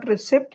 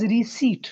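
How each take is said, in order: First: Receipt as ri-SIPT, rising; short vowel before the p of receipt; wrong pronunciation. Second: Receipt as ree-SEET; long ee before the t of receipt; correct pronunciation. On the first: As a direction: sound the p in receipt. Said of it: "it is not receipt". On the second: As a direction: silent p in receipt. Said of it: "it is receipt". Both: Shown as a demonstration.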